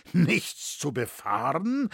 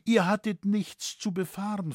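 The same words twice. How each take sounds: First: Slow, wary question rising on befahren; father slowly echoing his daughter, darkly suspicious. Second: Said in the usual way. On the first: A narrator's reading. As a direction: repeat her words with slow suspicion. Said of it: "mit finsterem Blick und steigender Aufmerksamkeit".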